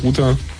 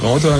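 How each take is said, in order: First: The word is pronounced the German way. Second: The word is pronounced the American way. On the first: This is how people in Germany usually say it. "in Deutschland sagt man ganz gern Router" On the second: This is how Americans usually say it. "Die Amis sagen ganz gern Router"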